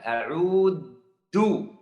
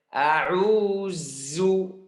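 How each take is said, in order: First: The middle consonant is a hard d sound. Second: The middle consonant is a buzzing z sound. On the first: "Seperti huruf dal" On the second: "Dibaca uh, ujung lidah di dalam"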